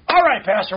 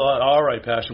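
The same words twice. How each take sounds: First: It is said in an eager, ready tone. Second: It is said in a hesitant, grudging tone. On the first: The speaker is glad and ready to act. The speaker calls it right. "If you're willing and obedient, you're saying" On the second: The speaker goes along without real willingness. The speaker calls it wrong. "No, see, that was the wrong tone of voice"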